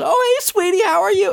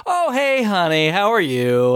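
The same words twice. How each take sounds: First: Put-on baby-talk sweetness. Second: High, sugary greeting to his wife; sweet phone voice. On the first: Paul coos to his daughter on the phone, very high. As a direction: gush over his little daughter. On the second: Retold or imitated. Paul greets his wife on the phone mid-torture, sugary high. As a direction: turn on the fake family-man charm.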